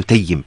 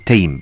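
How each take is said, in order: First: Tayyim with a geminated y; two syllables, Tay-yim, y doubled. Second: Taym as a single syllable; no vowel after the y in Taym; unvowelled ya in Taym. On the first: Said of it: "بتشديد الياء". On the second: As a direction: close the y straight onto m in Taym. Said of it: "بتسكين ال". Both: Shown as a demonstration.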